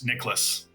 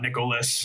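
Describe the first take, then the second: First: The name is said with two syllables. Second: The name is said with three syllables. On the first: The speaker calls it right. "Two syllables" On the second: The speaker calls it wrong.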